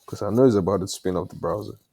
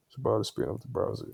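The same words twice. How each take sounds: First: Said in the usual way. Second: Muttered quickly under breath; quiet fast mutter. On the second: Real, not acted. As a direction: rush it out softly to yourself. Repeats the line under breath.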